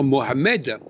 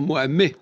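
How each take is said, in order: First: The final D sound is pronounced. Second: The final D sound is silent. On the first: The speaker calls it wrong. "on ne doit pas dire" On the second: The speaker calls it right. "on doit dire ... le D ne se prononce pas"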